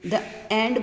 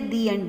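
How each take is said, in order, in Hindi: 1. आर्टिकल को छोटी 'uh' ध्वनि के साथ बोला जाता है। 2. आर्टिकल को लंबी 'ee' ध्वनि के साथ बोला जाता है। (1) "द एंड बोलते हैं" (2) "दी एंड बोलते हैं"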